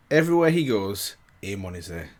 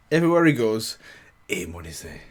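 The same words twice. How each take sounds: The two takes are said the same way.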